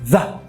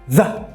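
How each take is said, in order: The two takes are said the same way.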